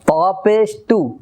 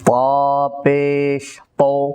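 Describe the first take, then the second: First: The vowel is light and sounds like u. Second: The vowel is heavy and sounds like o. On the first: The speaker calls it wrong. "রস্যুকারের মতো উচ্চারণ হয়... এটা কিন্তু গলত" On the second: The speaker calls it right. "সেটি উচ্চারণ হবে ওকারের মতো"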